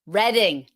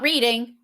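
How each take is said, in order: First: The first vowel sounds like the word red. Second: The first vowel sounds like the word reed. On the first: The speaker calls it right. "It's reading like the color" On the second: The speaker calls it wrong. "It's not reading like the verb"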